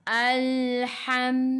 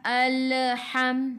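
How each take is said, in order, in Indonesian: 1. Bunyi lam ditahan tetap tanpa pantulan. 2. Bunyi lam dipantulkan dengan gema. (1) "Kita kena baca alham" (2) "Tak boleh"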